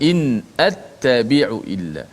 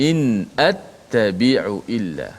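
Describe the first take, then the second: No difference in how they are said.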